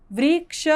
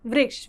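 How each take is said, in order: First: "वृक्ष" drawn out as "व्री", "क्ष"; split into syllables. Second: Said in the usual way. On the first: Shown as a demonstration. Teacher spelling the word for students, split into syllables. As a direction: break "वृक्ष" in two, sounding each part.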